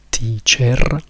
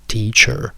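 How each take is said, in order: First: The ending has a full, unreduced vowel. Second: The ending is a schwa followed by an R. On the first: The speaker calls it wrong. "noi non diciamo teacher" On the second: The speaker calls it right. "In americano la schwa rimane, ci aggiungiamo semplicemente una R"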